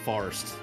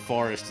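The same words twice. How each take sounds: First: The word is squeezed into one syllable. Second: The word is said with two syllables. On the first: The speaker calls it wrong. "the way a redneck says it, it's one syllable" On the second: The speaker calls it right. "two syllables if you say it properly"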